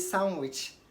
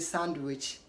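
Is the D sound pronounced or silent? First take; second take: silent; pronounced. First: The d sound is left out. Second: The d sound is pronounced. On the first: The speaker calls it right. "Say sandwich" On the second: The speaker calls it wrong. "D is not pronounced in sandwich. Don't say sandwich"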